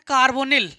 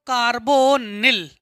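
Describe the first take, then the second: First: Said in the usual way. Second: carbonyl drawn out in separate syllables; slow dictation. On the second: Shown as a demonstration. Teacher repeating carbonyl for students, slow dictation with long syllables. Same term repeated slowly for writing.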